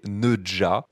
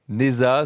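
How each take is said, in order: First: The middle consonant is a j-like sound. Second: The middle consonant is a plain z sound. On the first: It is the authentic original pronunciation. "se prononce en réalité Neja, si on le prononce vraiment à la phonétique" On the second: It is the simplified name used for clarity. "je vais l'appeler Neza tout simplement"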